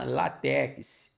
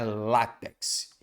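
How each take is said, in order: First: The stress is on the second syllable. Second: The stress is on the first syllable. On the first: The speaker calls it wrong. "como no dia a dia a gente ouve demais" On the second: The speaker calls it right. "na verdade a sílaba tônica é o lá"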